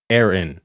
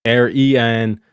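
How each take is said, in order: First: "Aaron" as air-in, two short syllables; E taken out. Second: "Arian" slowly split, air-ee-an; E in the middle. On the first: Streamer showing the word minus one sound, E taken out. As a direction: say "Aaron" lower, without the middle ee. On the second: Streamer showing which sound gets removed, E in the middle. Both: Shown as a demonstration. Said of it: "take out the E in the middle".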